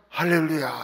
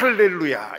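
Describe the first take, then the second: First: It starts with a soft, breathy h sound. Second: It starts with a harsh, throaty, rasping sound. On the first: This is how it is said in church. "교회에서는 할렐루야 이렇게 하고" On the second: This is how Israelis say it. "가래 끓는 소리로"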